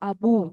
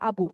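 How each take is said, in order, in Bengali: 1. শেষ স্বরধ্বনিটি দীর্ঘ। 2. শেষ স্বরধ্বনিটি হ্রস্ব। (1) "শেষের যে উচ্চারণটা সেটা একটু লম্বা হবে" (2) "আমরা কিন্তু বলবো না আবু, শুধু আবু কিন্তু বলবো না"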